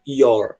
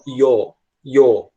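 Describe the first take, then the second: First: "your" with the R sounded; American your. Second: "your" dropping the final R; British your. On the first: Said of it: "como eles puxam o R". ("your" à americana, com o R) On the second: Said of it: "sem puxar o R". ("your" à britânica, sem o R) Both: Shown as a demonstration.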